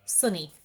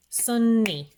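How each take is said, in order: First: Said in the usual way. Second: "Sunny" louder and higher, in two stretched beats, sun-nee; clapped-out syllables. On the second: Shown as a demonstration. Teacher clapping out a word's two syllables, beat by beat. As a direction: punch out both syllables of "Sunny". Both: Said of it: "Clap it out".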